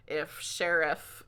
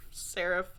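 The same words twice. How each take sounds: First: Said in the usual way. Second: Whispered name through a laugh. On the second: Real, not acted. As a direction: breathe the name, giggling.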